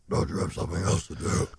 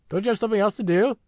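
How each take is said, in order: First: It is said in a low, Batman-like voice. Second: It is said in a high voice.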